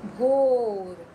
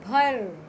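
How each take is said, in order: First: भोर called out louder; name भोर clearly with the ओ sound; loud word reading. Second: भर called out louder; name भर clearly for the class; loud word reading. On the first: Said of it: "ओ की मात्रा लगाते हैं". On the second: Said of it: "पहले यहाँ लिखा है भर". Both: Shown as a demonstration.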